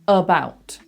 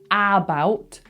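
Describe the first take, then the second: First: The first vowel is a relaxed neutral sound. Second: The first vowel is open and full. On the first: The speaker calls it right. "That neutral sound" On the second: The speaker calls it wrong. "Not about"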